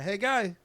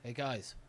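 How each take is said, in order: First: It is said with an imitated echo. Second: It is said plainly, without echo.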